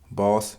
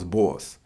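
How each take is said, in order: First: The vowel is a plain, short o sound. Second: The vowel is a drawn-out New York aw sound.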